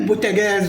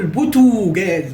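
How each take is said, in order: First: The vowel after the t sounds like 'a'. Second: The vowel after the t sounds like 'o'. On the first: The speaker calls it right. "قل بوتاجاز" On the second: The speaker calls it wrong. "ولا تقل بوتوجاز"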